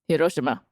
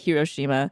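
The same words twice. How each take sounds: First: The name is said with a Japanese accent. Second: The name is said with an American accent. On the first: "I'm trying to say it with the right accent" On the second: "Or as we Americans say"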